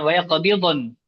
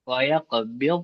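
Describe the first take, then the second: First: An extra vowel follows the final consonant. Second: The final consonant is closed without an added vowel. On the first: The speaker calls it wrong. "Bukan waya qabildon" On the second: The speaker calls it right. "Ini waya nun ditutup"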